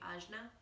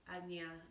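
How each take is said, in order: First: It uses the common Western pronunciation. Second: It uses the traditional Indian pronunciation. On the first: The speaker calls it wrong. "It's pronounced in the West um, very frequently" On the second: The speaker calls it right. "a little bit more of the, the culturally correct way to pronounce"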